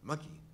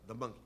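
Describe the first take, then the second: First: Said quickly so the article drops away. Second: Said at normal speed with the article heard.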